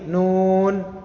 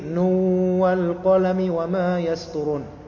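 First: A short pause follows nun before the next word. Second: Nun runs straight into the following word. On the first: "nun berhenti sebentar, wal qalami wama yasturun" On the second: "mengidghamkan nun atau meleburkannya ke waw"

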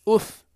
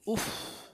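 First: The f sound is short and light. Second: The f sound is doubled and held. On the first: "أف خفيفة" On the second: "أف شددت"

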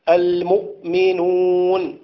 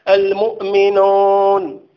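First: The vowels are said without rounding the lips. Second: The vowels are said with the lips rounded. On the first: The speaker calls it wrong. "المؤمنون ليست هي المؤمنون" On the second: The speaker calls it right. "إذن ضم الشفتين مهم لكي نقرأ القرآن قراءة صحيحة"

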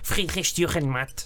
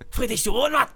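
First: The name is said in a plain voice. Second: The name is said in a mock Japanese accent. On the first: "Vou dizer mais uma vez" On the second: "Estupidamente ofensivo em japonês"

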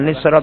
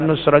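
First: The first vowel is an i sound. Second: The first vowel is a u sound. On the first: The speaker calls it wrong. "bukan nisroh" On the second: The speaker calls it right. "tapi nusroh itu namanya dobet"

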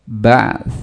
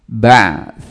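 Both takes have the same delivery.

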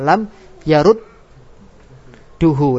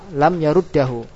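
First: The vowel after the doubled d is u. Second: The vowel after the doubled d is a. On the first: The vowel matches the vowel that comes after it. "wajib doma ... mengikuti harokat setelahnya" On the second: This reading is allowed by some scholars. "Boleh enggak dibaca fathah dan kasrah? Boleh menurut pendapat ulama ahli kufa"

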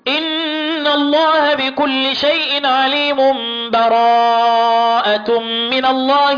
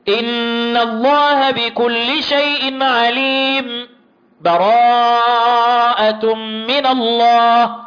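First: The phrases run together with no break at all. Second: A short break without a breath between phrases. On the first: "الوصل" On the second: "السكت ... اقطع التلاوة بدون ما اخد نفس"

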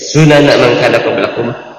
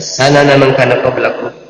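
First: The first syllable of the word has a 'u' vowel. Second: The first syllable of the word has an 'a' vowel. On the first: It is the plural of sunnah, meaning ways of life. "dengan didomahkan sinnya" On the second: It means the path taken, as a singular noun. "bil fathi dengan fathah"

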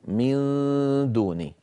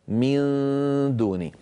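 Both takes have the same delivery.

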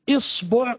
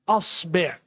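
First: The first vowel is an i sound. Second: The first vowel is an a sound. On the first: "لو جئنا بالكسر" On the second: "لو جئنا بالفتح"

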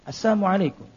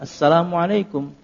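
First: The L sound in the greeting is left out. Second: The L sound in the greeting is fully pronounced. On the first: It wishes death or poison upon the listener. "padahal lamnya itu enggak ada" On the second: It wishes peace upon the listener. "ya lengkap"

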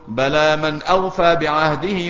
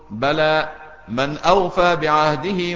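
First: The first word runs straight into the next. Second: There is a pause after the first word. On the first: The first word leads directly into the following sentence. "ممكن توصلها بمعنى ما تقفش" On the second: The first word stands alone as a reply denying the preceding claim. "ممكن تقف عليها"

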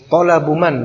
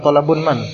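First: The first word ends in a plain vowel. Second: The first word ends in an added n sound. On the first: The speaker calls it right. "Talabu man, bukan talabun man" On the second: The speaker calls it wrong. "bukan talabun man"

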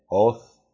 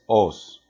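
First: The final sound is a th sound. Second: The final sound is an s sound. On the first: "los españoles con su Z de Castilla bien conocida" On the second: "aun cuando nosotros la pronunciamos como si fuese una S"

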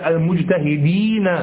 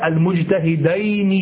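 First: The ending sounds like 'eena' with a long ee. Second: The ending sounds like 'ayni' with an ay vowel. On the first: The speaker calls it right. "بل المجتهدين، يكسر ما قبله ويفتح ما بعده" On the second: The speaker calls it wrong. "لا المجتهدين"

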